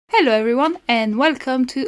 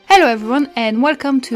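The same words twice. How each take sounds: First: It is spoken at an ordinary speed. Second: It is spoken very quickly. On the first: The speaker calls it right. "let's start again at a normal pace" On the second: The speaker calls it wrong. "that's too fast"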